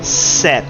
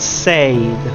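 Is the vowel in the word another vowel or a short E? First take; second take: short E; another vowel. First: The vowel is a short E sound. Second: The vowel is not a short E sound. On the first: The speaker calls it right. "it's said" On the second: The speaker calls it wrong. "This is not said"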